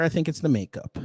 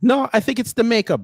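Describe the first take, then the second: First: Said in the usual way. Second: Louder and higher, insisting it's the makeup; louder higher "No, I think it's the makeup"; louder retort. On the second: Retold or imitated. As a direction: shoot back that it's the makeup. Mock reply, then repeat.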